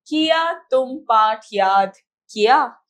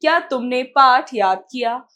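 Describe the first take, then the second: First: Loud, slow reading with किया opening as 'ki-yaa'; faulty example sentence. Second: Loud reading with क्या as one syllable, 'kya'; corrected example sentence. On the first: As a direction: split the first किया into two syllables, word by word. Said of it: "यह अशुद्ध वाक्य है". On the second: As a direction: open firmly on a joined ky in क्या. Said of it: "शुद्ध वाक्य है". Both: Shown as a demonstration.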